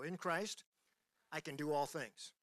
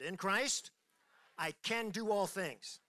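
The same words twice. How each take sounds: First: It is said in a calm, plain voice. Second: It is said with force and energy.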